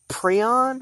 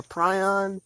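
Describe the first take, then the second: First: First vowel of prion like "pree". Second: First vowel of prion like "pry". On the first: Offering viewers one way to say it, prion as PREE-on. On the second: Offering viewers the other way, prion as PRY-on. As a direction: say prion with a long i. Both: Shown as a demonstration. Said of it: "say it how you want to".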